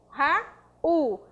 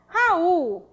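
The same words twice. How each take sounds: First: "Raul" split as Ra - ul; syllable by syllable. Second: Said in the usual way. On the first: Shown as a demonstration. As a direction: clear pause between Ra and ul. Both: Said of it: "Sílaba tônica".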